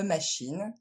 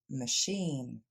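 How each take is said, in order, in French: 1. Elle se dit avec un accent français. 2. Elle se dit avec un accent anglais. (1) "à cause du français, vous dites" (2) "ça va se dire"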